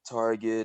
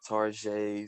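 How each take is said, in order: First: The name is said in an ordinary way. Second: The name is said in a fancy-sounding way.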